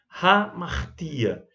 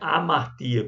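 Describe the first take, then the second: First: The word begins with a breathy h sound. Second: The word begins directly with a vowel sound. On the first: The speaker calls it right. "um espírito rude, que deve ser pronunciado" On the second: The speaker calls it wrong. "Não é amartia"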